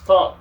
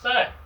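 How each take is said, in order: First: The name sounds like the word 'thong'. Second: The name does not sound like 'thong'. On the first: The speaker calls it right. "It's pronounced thong, like like this, like a sandal" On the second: The speaker calls it wrong. "you would actually think about saying that his name is Thang"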